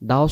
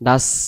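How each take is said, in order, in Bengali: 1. 's' ধ্বনিটি ভারী, ঠোঁট গোল করে। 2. 's' ধ্বনিটি পাতলা, মুখ ফাঁকা রেখে। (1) "আমরা বলবো দাস, মুখটা গোল হবে" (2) "দাস পাতলা"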